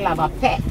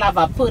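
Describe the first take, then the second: First: The last word is clipped short. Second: The last word is said in full. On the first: "Trinidadians cut things short" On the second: "they don't say lava pearl"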